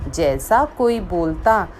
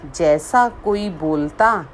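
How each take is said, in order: Both takes have the same delivery.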